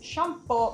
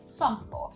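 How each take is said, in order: First: The word begins with an sh sound. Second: The word begins with an s sound. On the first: "we wouldn't have shampoo" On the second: "pronounced with the regular S in Finnish"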